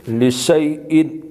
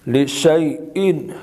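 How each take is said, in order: The two takes are said the same way.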